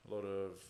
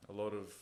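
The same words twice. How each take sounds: The two takes are said the same way.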